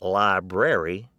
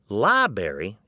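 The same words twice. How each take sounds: First: The first R is pronounced fully. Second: The first R is dropped, libary. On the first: "instead of" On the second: "instead of"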